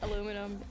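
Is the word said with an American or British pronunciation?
American. It is said with four syllables, American style. "You know how we say aluminum"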